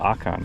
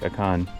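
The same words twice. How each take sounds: First: The stress is on the first syllable. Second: The stress is not on the first syllable. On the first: The speaker calls it right. "it's probably Akan... The emphasis is on the O" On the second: The speaker calls it wrong. "We've always been saying Lake Akan"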